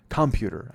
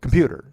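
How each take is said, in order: First: Computer said clumsily, syllables mangled; botched pronunciation. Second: Computer said cleanly, louder and higher; corrected pronunciation. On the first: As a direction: trip over the word Computer. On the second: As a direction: nail the word Computer, correcting yourself. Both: Shown as a demonstration. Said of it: "I just made that fucking three syllables in, in a two-syllable word".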